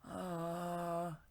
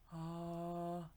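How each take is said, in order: First: A breathy sound with a tight, compressed throat. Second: A breathy sound with a loose, open throat. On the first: "that's breathy, and it is tight" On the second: "that's breathy, but it's not tight"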